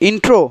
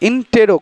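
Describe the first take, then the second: First: No vowel is heard between t and r. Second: A vowel is heard between t and r. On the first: The speaker calls it wrong. "ইন্ট্রো না" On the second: The speaker calls it right. "ইন্টেরো কথাটা"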